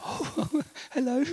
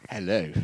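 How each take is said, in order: First: High, flustered surprised hello; startled greeting. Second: Low, plummy upper-class hello; posh voice. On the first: Man answering a call from a famous missionary, startled. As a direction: squeak it out caught off guard. Caught off guard by famous caller. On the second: Famous posh missionary greeting on the phone, plummy hello. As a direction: do a lightly posh lady's greeting. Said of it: "she's very posh. And so there's this voice". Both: Retold or imitated.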